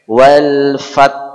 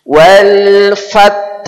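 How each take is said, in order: First: It stops on a plain t sound. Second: It ends with a breathy h sound. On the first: The speaker calls it wrong. "Berhenti pada huruf T" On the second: The speaker calls it right. "akhir suara kita huruf ha"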